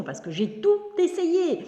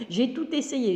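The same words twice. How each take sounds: First: "tout" said high and slow, fed up; pitched way up in frustration; exasperated. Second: Said in the usual way. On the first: Real, not acted. Exasperated about flies.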